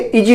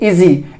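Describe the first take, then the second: First: The middle consonant is a 'j' as in jam. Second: The middle consonant is a buzzing 'z' sound. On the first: The speaker calls it wrong. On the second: The speaker calls it right.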